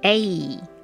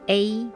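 First: The pitch falls at the end. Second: The pitch stays level throughout.

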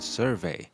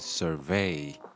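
First: The stress is on the first syllable. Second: The stress is on the second syllable. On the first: It is used as a noun. "通常如果是名词的话，我们这个重音就会念在前面" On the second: It is used as a verb. "那像这边是动词的话，我们就会念survey"

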